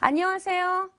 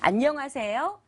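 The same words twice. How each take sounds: First: The greeting is said in a straight, flat way. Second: The greeting is said in a warm, rounded way. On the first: "이런 말들은 이제 직선의 말인데요" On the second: "소리가 기가 막히게 따뜻하게 떨어지게 됩니다"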